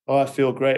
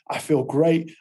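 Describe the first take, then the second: First: It is said flatly, with little energy. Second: It is said loudly, with high energy.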